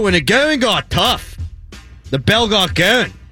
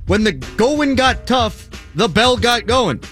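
First: It is said in a funny put-on voice. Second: It is said in his ordinary speaking voice.

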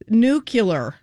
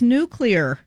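First: An extra u-sound comes between the c and l. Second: No extra vowel comes between the c and l. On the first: The speaker calls it wrong. "There's no U between the C and the L" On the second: The speaker calls it right. "It's nuclear"

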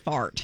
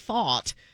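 First: It is said in a plain, everyday accent. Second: It is said in a posh, regal-sounding accent. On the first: It sounds cruder. "it doesn't sound as bad as fart" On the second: It sounds less crude. "when he says fart, it's a little bit more regal"

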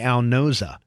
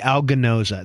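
First: The G at the start is silent. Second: The G at the start is pronounced. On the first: The speaker calls it right. "your name should be Al Gnoza. That G should be silent" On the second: The speaker calls it wrong. "It should not be Al Gnoza"

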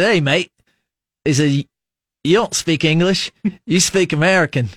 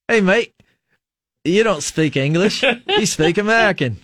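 First: It is said in a plain American accent. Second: It is said in an Australian accent. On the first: "the whole time you were saying that, I'm like, please talk, give us an Australian accent" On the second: "Oh, you wanted to hear it"

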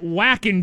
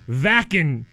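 First: The name begins with an English W sound. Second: The name begins with an English V sound. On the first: The speaker calls it wrong. "it's not Wacken" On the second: The speaker calls it right. "The German consonant W is pronounced like an English V"

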